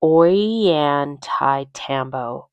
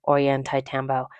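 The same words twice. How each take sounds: First: Ollantaytambo sounded out slowly as "oy-yan-tie-TAM-bo"; careful name attempt. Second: Said in the usual way. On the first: Shown as a demonstration. Traveler attempting a town name she may butcher, slow careful pronunciation. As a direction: feel through Ollantaytambo syllable by syllable, slowly. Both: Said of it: "I'm gonna butcher this".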